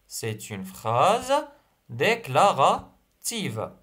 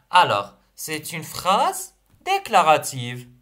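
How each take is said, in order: First: C'est une phrase déclarative, slowly, for writing down; slow dictation voice. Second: Said in the usual way. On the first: Shown as a demonstration.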